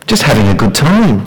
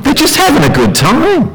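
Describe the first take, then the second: First: Said in the usual way. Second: Much higher, breezy mock voice; voicing the crowd's carefree excuse; mimicking the worldly view. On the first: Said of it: "what do they call it?". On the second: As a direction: toss the line off carelessly. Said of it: "That's all they're thinking".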